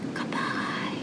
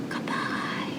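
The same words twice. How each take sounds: First: It is said very quietly. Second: The same.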